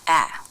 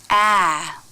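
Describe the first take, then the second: First: The pitch stays flat, low and quiet. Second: The pitch rises and then falls. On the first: The vowel is in an unstressed syllable. "the vowel is flatter and lower in pitch, quieter" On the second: The vowel is in a stressed syllable. "the vowel will go up and come down in pitch"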